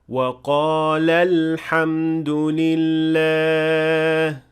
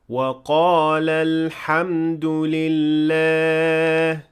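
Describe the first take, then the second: First: The end of the first word is stressed. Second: The end of the first word is unstressed. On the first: It was done by two people. The speaker calls it right. "we have to apply a stress on the last part of the word" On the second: It was done by one person. The speaker calls it wrong.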